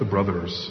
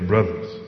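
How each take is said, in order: First: Brothers is said with standard careful pronunciation. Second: Brothers is said casually, ending in an 'a'. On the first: The speaker calls it wrong. "Not the brothers" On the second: The speaker calls it right. "You spell it with a U and an A"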